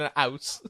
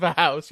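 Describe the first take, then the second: First: "house" without its H, as "ouse"; dropped H. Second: "house" with a clear H; H pronounced. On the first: Explaining the joke to friends, H-less "ouse". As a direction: start "house" straight on the vowel. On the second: Explaining the joke to friends, "house" with its H. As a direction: sound the H at the start of "house". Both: Shown as a demonstration. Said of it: "Instead of a house, you live in a house".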